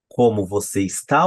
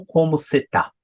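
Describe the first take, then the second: First: Said in the usual way. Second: "você está" shortened to "cê tá"; everyday reduced form. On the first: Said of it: "ou como cê tá?". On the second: Shown as a demonstration. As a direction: run it together casually as "cê tá". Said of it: "No dia a dia eu falo".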